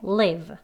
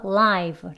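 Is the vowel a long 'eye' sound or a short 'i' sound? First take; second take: short i; long eye. First: The vowel is a short 'i' sound. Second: The vowel is a long 'eye' sound. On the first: It means to reside somewhere. "어디 어디에 살다. 이럴 때 live 라고 발음하고요" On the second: It means broadcast in real time or alive. "생중계의 이런 뜻이지요... 그래서 live 라고 발음해야 합니다"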